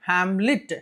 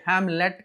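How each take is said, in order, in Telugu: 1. చివరి అక్షరం 'lit' లా వినిపిస్తుంది. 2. చివరి అక్షరం 'let' లా వినిపిస్తుంది. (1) "లిట్" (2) "హ్యామ్లెట్ కాదండి"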